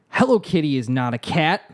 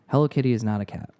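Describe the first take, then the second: First: It is read with lively, emotional energy. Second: It is read plainly, with little energy. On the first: "now I'm going to read this with a little bit more gusto" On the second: "I'm going to read it through once"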